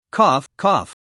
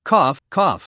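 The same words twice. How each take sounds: First: Two short rough coughs; dry coughing. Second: Two hard wounded coughs; violent coughing. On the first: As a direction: cough it out after the dust. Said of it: "crawled out of the armored vehicle while coughing". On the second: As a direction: cough like you're badly hurt. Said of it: "Li Ji suddenly coughed violently". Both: A narrator's reading.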